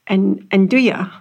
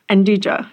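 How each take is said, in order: First: The word is pronounced the Italian way. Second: The word is pronounced in an anglicized way. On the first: This is how it is pronounced in Italy. "because that's how they pronounce it in Italy" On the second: This is the habitual local pronunciation. "I've always said Nduja"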